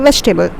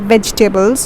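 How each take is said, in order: First: The word is said quickly with three syllables. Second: The word is said slowly with four syllables. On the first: The speaker calls it right. "E over here becomes silent ... you have to pronounce it quickly" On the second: The speaker calls it wrong. "You don't say"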